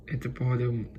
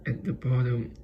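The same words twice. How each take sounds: The two takes are said the same way.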